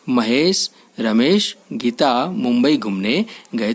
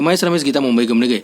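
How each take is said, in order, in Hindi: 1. हर नाम के बीच छोटे रुकाव होते हैं। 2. नाम बिना किसी रुकाव के एक साथ बोले जाते हैं। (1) "सही तरीका है" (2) "पर यह पढ़ने का सही तरीका नहीं है"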